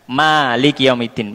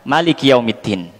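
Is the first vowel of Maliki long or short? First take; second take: long; short. First: The first vowel of Maliki is drawn out long. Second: The first vowel of Maliki is kept short. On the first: "dengan memanjangkan" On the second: "Dipendekkan mimnya"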